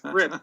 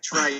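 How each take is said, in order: First: The vowel is short, rhyming with 'ship'. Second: The vowel is long, rhyming with 'type'. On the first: The speaker calls it right. "but it's Trip" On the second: The speaker calls it wrong. "It looks like Tripe"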